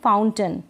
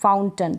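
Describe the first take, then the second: No difference in how they are said.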